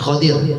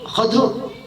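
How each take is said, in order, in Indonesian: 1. Vokal pertama a, dengan vokal i sebelum r. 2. Vokal pertama a, tidak ada vokal antara d dan r. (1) "bipatul kho kho mujama waqsidot" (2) "wa iskan dot"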